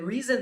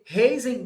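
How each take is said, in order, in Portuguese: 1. O nome é lido com sons ingleses. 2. O nome é lido com sons portugueses.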